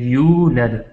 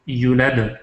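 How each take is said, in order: First: The first vowel is held long. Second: The first vowel is cut short. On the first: The speaker calls it right. "ये यू जो है थोड़ा लंबा करके एक अलिफ मिकदार" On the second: The speaker calls it wrong. "इसको घटा के, इसको ख़त्म करके ... ये भी गलती है"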